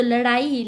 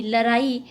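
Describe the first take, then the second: First: Said in the usual way. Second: लड़ाई with plain r for the flap; Eastern Hindi r. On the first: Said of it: "सामान्य रूप में लड़ाई". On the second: Shown as a demonstration. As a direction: say लड़ाई as la-raa-ee. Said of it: "ढ ध्वनि प्राय र के". (लड़ाई में ड़ की जगह र)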